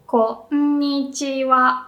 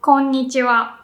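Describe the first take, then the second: First: Konnichiwa drawn out slowly, KO low, the rest up; slow teaching Konnichiwa with pitch rising after ko; low then high. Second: Konnichiwa in one quick natural run; quick everyday Konnichiwa; said quickly. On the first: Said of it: "and then the rest goes up". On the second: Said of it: "If I say it quickly". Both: Shown as a demonstration.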